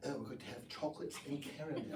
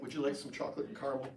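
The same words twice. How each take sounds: First: Soft, quick mock-British accent; hushed, playful British accent. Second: Said in the usual way. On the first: Shown as a demonstration. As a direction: lightly put on a refined British accent. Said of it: "saying this British accent". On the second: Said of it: "Like, as Americans".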